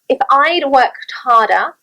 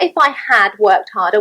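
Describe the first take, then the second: First: Had is contracted onto I. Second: Had is said as a full word. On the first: The speaker calls it right. "When I contract my third conditional" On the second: The speaker calls it wrong.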